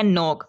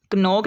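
First: "नोक" starting straight on n; silent k. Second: "कनोक" with k sounded before n; wrong pronunciation. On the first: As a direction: drop the first k from "नोक". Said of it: "ये है". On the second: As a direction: pronounce the first k in "कनोक". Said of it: "नहीं है". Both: Shown as a demonstration.

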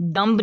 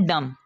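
First: "डम्ब" with the final b sounded; wrong pronunciation. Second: "डम" ending on m, no b; silent b. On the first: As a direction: pronounce the silent b in "डम्ब". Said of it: "नहीं पढ़ना". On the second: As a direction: drop the b at the end of "डम". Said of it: "इसको हमने पढ़ना है". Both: Shown as a demonstration.

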